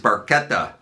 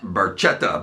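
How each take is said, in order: First: The name is said with Italian pronunciation. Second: The name is said with English pronunciation. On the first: The speaker calls it right. "That is Barchetta" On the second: The speaker calls it wrong. "not Barchetta, by the way, as [name] erroneously pronounced it"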